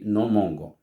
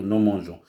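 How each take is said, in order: First: The g is hard, like in go. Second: The g is soft, like a zh sound. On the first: "Si je mets pas de E, on lit" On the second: "je vais mettre un E pour lire nous mangeons"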